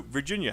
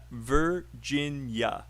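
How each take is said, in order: First: Said in the usual way. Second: Virginia drawn out slowly, syllable by syllable; broken into syllables. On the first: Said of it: "how many syllables?". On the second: Shown as a demonstration. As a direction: break Virginia into three slow, separate syllables. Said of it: "Break it out and then say three".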